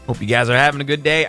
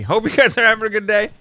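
First: The voice sounds husky and rough. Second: The voice sounds clearer and less rough. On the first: "I got a husky voice today" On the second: "Now I sound less husky"

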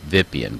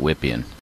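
First: The name begins with a V sound. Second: The name begins with a W sound. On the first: This is how the program's author probably intended it. "he may have wanted it pronounced Vipien instead of Wippien" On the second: This is the pronunciation an American audience expects. "I'm just going to pronounce it Wippien"

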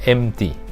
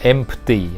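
First: No P sound is pronounced in the middle. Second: A P sound is pronounced in the middle. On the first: The speaker calls it right. "ตัวนี้ไม่ออกเสียงตัว P นะครับ ... ออกว่า" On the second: The speaker calls it wrong. "อย่าออกว่า"

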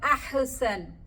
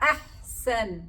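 First: The h is released with a bouncing echo. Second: The h is held still without a bounce. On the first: The speaker calls it wrong. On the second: The speaker calls it right.

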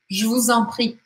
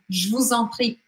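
The two takes are said the same way.

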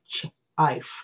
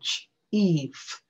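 First: The vowel is a long 'eye' sound. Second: The vowel is a long 'ee' sound. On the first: The speaker calls it wrong. "instead of" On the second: The speaker calls it right. "the E grown up comes in and makes the E sound"

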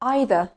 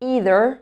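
First: It is said with a British accent. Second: It is said with an American accent. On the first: "هننطق الأول البريتش أكسنت" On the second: "وبعدين الأمريكان أكسنت"

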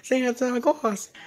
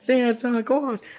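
First: It is said in a put-on character voice. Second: The same.

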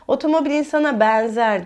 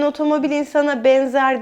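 First: The e vowels are open, with a regional accent. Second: The e vowels are closed, standard Istanbul style. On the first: The speaker calls it wrong. "E'leri açık söylüyordum. Şivem vardı" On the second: The speaker calls it right.

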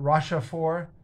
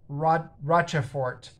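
First: The name is pronounced with French sounds. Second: The name is pronounced with English sounds. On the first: "Rochefort would be the French pronunciation" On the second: "It looks like it's Rochefort in English"

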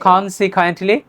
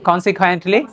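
No difference in how they are said.

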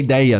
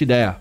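First: The middle vowel is the diphthong 'ei'. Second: The middle vowel is a plain 'e'. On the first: The speaker calls it wrong. "não é ideia" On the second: The speaker calls it right. "é Fiat Idea"

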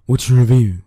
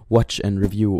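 First: The phrase is pronounced in a slurred, sloppy way. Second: The phrase is pronounced clearly and carefully.

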